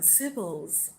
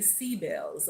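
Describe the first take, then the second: First: The first vowel is a short 'ih' sound. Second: The first vowel is a long 'ee' sound.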